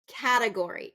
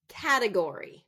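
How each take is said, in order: First: The stress is on the first syllable. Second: The stress is on the first syllable.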